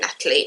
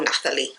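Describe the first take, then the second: First: The middle consonant is a plain t. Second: The middle consonant is a th sound. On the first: "I've heard it pronounced both Natalie" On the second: "because it's N A T H"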